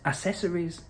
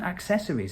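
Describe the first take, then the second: First: The word starts without a K sound, 'a-sessories'. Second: The word starts with a K sound, 'ak-sessories'. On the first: The speaker calls it wrong. "he would skip the C's" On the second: The speaker calls it right. "it wasn't accessories"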